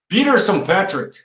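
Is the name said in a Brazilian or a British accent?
Brazilian. It is said in a Brazilian Portuguese accent.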